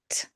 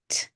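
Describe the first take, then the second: The two takes are said the same way.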